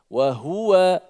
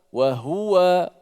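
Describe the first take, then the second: The two takes are said the same way.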